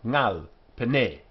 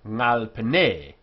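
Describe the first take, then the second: First: Ngal is stressed as a separate word. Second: Ngal is unstressed, joined to pene as one word. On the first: The two words stand apart. The speaker calls it wrong. "not ngal pene" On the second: The two words function as one word. The speaker calls it right. "this word here loses its accent because this then functions as one word"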